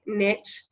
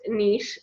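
First: Niche pronounced "nitch", with a short i; "nitch" pronunciation. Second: Niche pronounced "neesh", with a long ee; "neesh" pronunciation. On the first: Coach admitting her own habit, niche as "nitch". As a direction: say niche to rhyme with pitch. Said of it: "hear me call it niche". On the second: Coach giving the proper form, niche as "neesh". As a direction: say niche to rhyme with leash. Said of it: "it's properly pronounced niche". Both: Shown as a demonstration.

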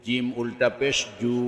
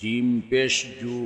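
First: Final "জু" held long; drawn-out vowel. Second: Final "জু" cut short; quick short vowel. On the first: Teacher demonstrating ulta pesh, long "জু". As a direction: stretch the last "জু" for one alif. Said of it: "একালিপ টেনে পড়তে". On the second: Teacher demonstrating normal pesh, short "জু". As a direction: keep the last "জু" brief, not held. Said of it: "তাড়াতাড়ি করতে হয়". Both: Shown as a demonstration.

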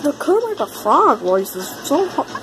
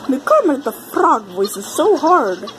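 First: A faint hint of Kermit's voice; lightly voiced Kermit the Frog. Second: Said in the usual way. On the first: Shown as a demonstration. Gamer tries out Kermit voice for viewers, a faint hint of Kermit. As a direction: try the frog voice and half fail.

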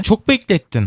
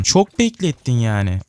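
First: Mock scolding exclaim. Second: Slow, level, a weary grumble; drawn-out mock complaint. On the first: To the slow item it waited on, a high mock scold. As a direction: fling the complaint up high. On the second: To the slow item, a slow tired grumble. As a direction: stretch it out like a sigh.

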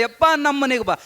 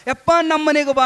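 First: Said in the usual way. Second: Higher, louder pleading call; eager invitation. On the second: Acted. Devotees begging the monk to visit, eager call. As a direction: urge him home, more eagerly.

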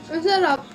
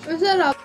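No difference in how they are said.

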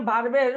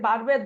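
No difference in how they are said.

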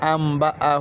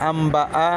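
No difference in how they are said.

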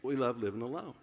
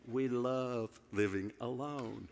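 First: Laughing retake. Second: Mock deadpan. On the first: Pretend. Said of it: "I'm gonna tell it just like this". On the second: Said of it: "I'm just playing".

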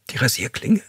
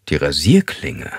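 First: Tearful question. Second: Slower, lower captor repeating the word; repeating flatly. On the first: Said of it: "Sie weinte los". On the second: Captor repeating her answer, slow and low. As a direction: say it back coldly and slowly. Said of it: "wiederholte er". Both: A narrator's reading.

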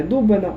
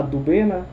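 First: «Дубина» with stress on the first syllable, У. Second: «Дубина» with stress on the middle syllable, И; stress on second syllable. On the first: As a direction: hit the opening syllable of «Дубина». («Дубина» з наголосом на першому складі) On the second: («Дубина» з наголосом на другому складі) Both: Shown as a demonstration. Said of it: "Там зовсім інший наголос".

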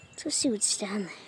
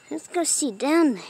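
First: Quick secretive whisper. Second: Said in the usual way. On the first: Pretend. A kid sneaks a look under the trampoline, fast whisper.

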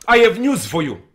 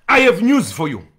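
Both takes have the same delivery.

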